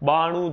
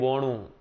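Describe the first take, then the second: First: The first vowel is an open a sound. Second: The first vowel is an o sound. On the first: This is the standard Gujarati form. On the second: This is the Charotar and North Gujarat dialect form.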